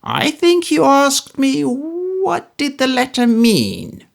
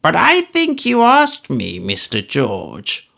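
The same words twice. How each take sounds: First: Put-on high, slow, needling old miser's voice; Smallweed building to his threat; sly menacing old man. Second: High, slow, creaky-old-man voice put on over fake pleasantness; an old miser pretending to be agreeable; old Smallweed voice, high and slow, pretending good humour; cranky old man, mock good temper. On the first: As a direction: draw it out before the strike.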